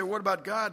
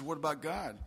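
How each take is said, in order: First: "What about God?" higher and louder, rising on God; "What about God?" as a raised, pressing question; earnest question. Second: Understated mimicry, dropping at the end; mocking echo. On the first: Acted. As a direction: ask "What about God?" openly, lifting the pitch. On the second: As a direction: echo the question back to make fun. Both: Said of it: "Don't you be making fun of me".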